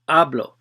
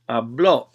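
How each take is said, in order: First: The stress is on the first syllable. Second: The stress is on the last syllable. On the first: "So you're going to stress or accentuate that one" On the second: "It's got a written accent"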